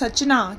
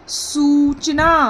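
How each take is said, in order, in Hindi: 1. पहले अक्षर में छोटा स्वर है। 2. पहले अक्षर में लंबा oo स्वर है।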